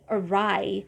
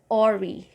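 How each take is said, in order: First: The last syllable sounds like 'rye'. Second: The last syllable does not sound like 'rye'. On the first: The speaker calls it right. "the first one is schwa again, and the last one is rai" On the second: The speaker calls it wrong. "I used to say ori, which is wrong"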